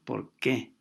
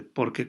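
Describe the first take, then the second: First: "por qué" split, with the weight on "qué"; stress on QUÉ. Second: "por qué" run together as "porque", no weight on "qué"; unstressed answer form. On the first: Teacher shows students the question form, stressed "qué". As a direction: say "por qué" as two words, landing firmly on "qué". Cuando es pregunta, sí. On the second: Teacher shows students the answer form, unstressed "porque". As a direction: say "por qué" quickly as one word, "porque". Cuando es respuesta, entonces no lleva. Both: Shown as a demonstration.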